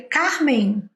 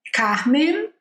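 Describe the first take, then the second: First: "Carmen" with the Portuguese aspirated R and a nasal ending. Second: "Carmen" with an American R and a clear final N; English Carmen. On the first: Teacher showing Portuguese "Carmen" against the English one. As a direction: say "Carmen" as a Brazilian would. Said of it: "em português". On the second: Teacher showing English "Carmen" against the Portuguese one. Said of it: "em inglês". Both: Shown as a demonstration.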